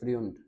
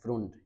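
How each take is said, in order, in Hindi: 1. स्वर एक yoo ध्वनि है। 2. स्वर एक सादा oo ध्वनि है। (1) "फ्रुंड या फ्रियुंड, तो ये गलत है" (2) "वो अक्सर इसको फ्रुंड पढ़ते हैं ... तो ये गलत है"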